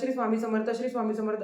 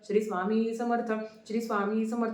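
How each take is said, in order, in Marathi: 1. हा मंत्र खूप जलद गतीने म्हटला जातो. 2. हा मंत्र स्थिर, मध्यम गतीने म्हटला जातो. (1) "इतकं फास्ट फास्ट फास्ट" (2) "खूप हळू पण नाही आणि खूप एकदम म्हणजे चला चला पळा पळा असं पण नाही"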